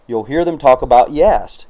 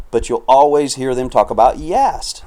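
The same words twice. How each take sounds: First: Said in the usual way. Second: Voice cracking. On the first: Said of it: "excuse me". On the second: Real, not acted. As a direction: let the voice break on "Yast". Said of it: "Sounded like a thirteen-year-old there".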